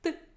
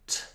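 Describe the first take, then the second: First: The t is released sharply without a puff. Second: The t is released with a puff of air. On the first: The speaker calls it right. "It's just t" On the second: The speaker calls it wrong. "It's not t"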